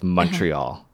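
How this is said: The name is said with an English pronunciation. The speaker calls it wrong. "the English has really butchered it with Montreal"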